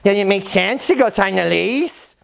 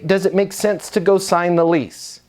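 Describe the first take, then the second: First: It is asked in a smart-alecky, jerky tone. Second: It is asked in a calm, easy tone.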